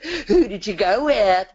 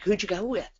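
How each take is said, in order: First: It is asked in a put-on, teacherly tone. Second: It is asked in a natural, casual tone. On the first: The asker already knows the answer. The speaker calls it wrong. "we do it in that different kind of teacher voice" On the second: The asker really does not know the answer. The speaker calls it right. "a real conversational voice"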